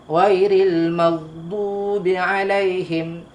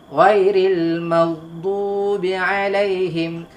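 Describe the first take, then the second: No difference in how they are said.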